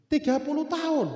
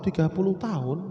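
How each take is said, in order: First: High, drawn-up TAHUN with a falling end; insistent, high-pitched answer; emphatic repeated answer. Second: Said in the usual way. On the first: Acted. Baker repeats answer when asked again.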